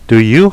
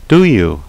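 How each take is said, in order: First: The pitch rises at the end. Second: The pitch falls at the end. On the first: The speaker is genuinely asking. "억양이 올라가면 물어보는 것이고" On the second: The speaker is seeking agreement. "동의를 구하는 것이에요"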